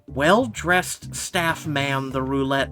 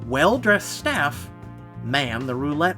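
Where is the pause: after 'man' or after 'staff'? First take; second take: after man; after staff. First: There is a pause after the word man. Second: There is a pause after the word staff. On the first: The staff man is a person who is being named. The speaker calls it wrong. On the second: The staff operate the roulette wheels. The speaker calls it right.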